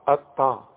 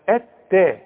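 First: The t sound is heavy and emphatic. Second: The t sound is light and thin. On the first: The speaker calls it wrong. "بذمتك تنفع اطا دي؟" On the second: The speaker calls it right. "ورقق لي التاء"

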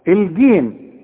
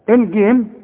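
No difference in how they are said.

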